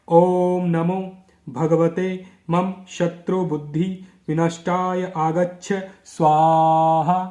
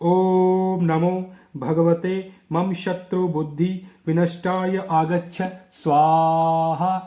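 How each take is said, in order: The two takes are said the same way.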